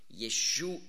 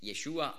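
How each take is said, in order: First: The word ends with a final h sound. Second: The word ends on a plain vowel. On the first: It is the word for salvation. The speaker calls it right. "ein H am Schluss. Und dann ist die Aussprache etwas anders" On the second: It is the personal name. The speaker calls it wrong. "Dann heißt es eben nicht Yeshua"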